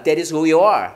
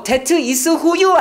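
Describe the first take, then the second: First: "That is who you are" as "tha-ris who-yuh-ar", lower; "you are" squeezed into "yuh-ar", pitch falling; correct linked pronunciation. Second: "that is who you are" with hard T and full "you"; "that" with an added vowel after T, unlinked; wrong unlinked pronunciation. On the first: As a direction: run "That is who you are" together with tapped T. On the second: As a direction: spell out "that is who you are" word by word, slower. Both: Shown as a demonstration. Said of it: "아니야".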